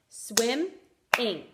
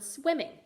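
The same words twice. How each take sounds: First: "Swimming" broken into swim, pause, ing; teacher sounding out "Swimming" syllable by syllable; split into syllables. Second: Said in the usual way. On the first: Shown as a demonstration. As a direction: say "Swimming" in two separate clapped beats. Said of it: "clap for each syllable". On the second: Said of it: "when we say the word".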